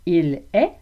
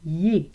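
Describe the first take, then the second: First: Both words are said in full. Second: The first word is reduced to a short vowel. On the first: Standard normative French. "Il est devient y est" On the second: Everyday Quebec French. "Il est devient y est"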